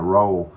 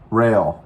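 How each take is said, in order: First: The name has an 'oh' vowel, like 'roll'. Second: The name has an 'ay' vowel, like 'rail'. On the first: The speaker calls it wrong. "I was calling it Roll. It's not called Roll" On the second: The speaker calls it right. "that's how they pronounce it"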